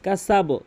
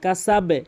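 First: The word ends with an o vowel. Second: The word ends with an e vowel. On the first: The speaker calls it wrong. "এখানে কিন্তু অধিকাংশ লোক কী বলে? কাসাবো বলে" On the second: The speaker calls it right. "কিন্তু এখানে কি বলতে হবে?"

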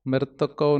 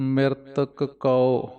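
First: The final k blurs and kau runs in. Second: The final k is full and kau stands apart. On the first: The speaker calls it wrong. "ਨਹੀਂ ਕਹਿਣਾ" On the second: The speaker calls it right. "ਕੱਕਾ ਪੂਰਾ ਪੜ੍ਹਨਾ ਹੈ, ਕਉ ਵੱਖਰਾ ਬੋਲਣਾ ਹੈ"

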